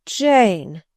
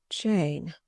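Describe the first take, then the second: First: Louder, pleading ache on the name; the second Jane swells with bitter pleading; bitter sadness, rising. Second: Low, soft and sorrowful; a quiet, bitterly sad first call of her name; bitter sadness. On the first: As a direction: call her name again, anguished and stronger. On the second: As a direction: let the name sink in quiet grief. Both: Acted. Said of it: "in such an accent of bitter sadness".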